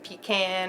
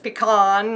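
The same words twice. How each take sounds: First: It is said with a southern US pronunciation. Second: It is said with a northern US pronunciation. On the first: The speaker is from the south. "if you're from the south, you might call it a pecan" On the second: The speaker is from the north. "if you're from the north, you might call it pecan"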